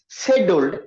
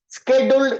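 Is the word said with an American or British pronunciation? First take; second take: British; American. First: It is said with a British pronunciation. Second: It is said with an American pronunciation. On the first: "whereas scheduled is British English" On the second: "Scheduled is something called American English"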